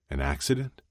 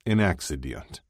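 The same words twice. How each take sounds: First: AN ACCIDENT as a question, rising at the end; tentative echo, lifting the end of ACCIDENT. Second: AN ACCIDENT as a dry statement with a falling end; understated sardonic answer, closing downward. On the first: Shane checking what Ilya said about his mother, questioning. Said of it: "Shane asked". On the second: Ilya answering how his mother died, sardonic. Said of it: "he said sardonically". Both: A narrator's reading.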